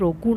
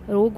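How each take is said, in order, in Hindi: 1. इस शब्द का अंत 'oo' की आवाज़ से होता है। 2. इस शब्द का अंत 'g' की आवाज़ से होता है। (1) "रोगू नहीं बोल रहे हैं" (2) "रोग बोल रहे हैं हम"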